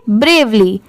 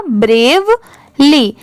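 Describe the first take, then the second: First: ब्रेवली joined in one go, falling; whole-word pronunciation. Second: ब्रेव, pause, ली; split into syllables. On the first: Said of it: "एक बार पूरा अच्छे से पढ़ेंगे". (ब्रेवली पूरा मिलाकर, साफ़ उच्चारण) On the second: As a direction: say ब्रेव and ली as two separate parts. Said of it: "पूरा मिला देंगे तो क्या हो जाएगा?". (ब्रेव और ली अलग-अलग बोलकर) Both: Shown as a demonstration.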